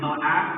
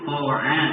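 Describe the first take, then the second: First: The first consonant sounds thin and light. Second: The first consonant sounds thick and heavy. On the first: The speaker calls it wrong. "bukan to'a" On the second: The speaker calls it right. "tapi po'a"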